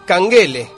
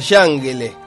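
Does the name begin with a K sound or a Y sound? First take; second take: K sound; Y sound. First: The name begins with a k sound. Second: The name begins with a y sound. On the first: This is how Turkish fans actually say it. "pero dicen Kangele" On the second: This is how a Turkish reading would sound. "Si fuera pronunciado en turco sería Yangele"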